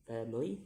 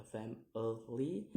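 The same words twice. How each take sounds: First: Said in the usual way. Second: "family" in three separate beats, rising at the end; syllable by syllable. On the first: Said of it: "in ly". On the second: Shown as a demonstration. Teacher demonstrating syllables, "family" split in three. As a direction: break "family" apart and lift the last. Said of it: "three syllables to say".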